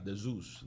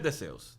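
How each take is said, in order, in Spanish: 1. El nombre se dice con pronunciación inglesa. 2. El nombre se dice con pronunciación española. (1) "en inglés se pronuncia de Zeus" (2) "en español es de Zeus"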